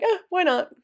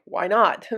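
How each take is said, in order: First: AH, WHY NOT pitched high, then falling away; shrugging why not. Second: WHY NOT asked as a real question, punched on NOT; genuine question. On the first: Teacher showing the other inflection of pourquoi pas, shrugging why not. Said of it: "it just depends on inflection". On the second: French teacher showing the question sense of pourquoi pas, genuine question. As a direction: ask "Why not?" sincerely, stressing NOT. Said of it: "this could be a legitimate question". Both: Shown as a demonstration.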